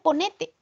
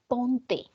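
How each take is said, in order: First: An extra "e" syllable sits in the middle. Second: No extra syllable sits in the middle. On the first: The speaker calls it wrong. "No se dice ponete" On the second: The speaker calls it right. "se dice ponte"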